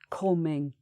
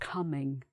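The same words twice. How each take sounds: First: The vowel in 'coming' is dark and deep. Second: The vowel in 'coming' is light and plain. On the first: "this is the main vowel sound here" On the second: "instead of"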